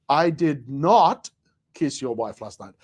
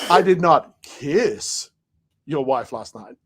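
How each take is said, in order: First: The stress falls on the word not. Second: The stress falls on the word kiss.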